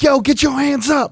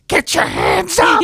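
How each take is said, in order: First: It is said in an amped hype voice. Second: It is said in a witchy voice.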